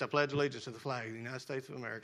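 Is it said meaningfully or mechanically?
mechanically. It is rattled off by rote, without meaning.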